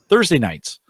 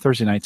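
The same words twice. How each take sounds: First: The phrase is said slowly and clearly. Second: The phrase is said very quickly.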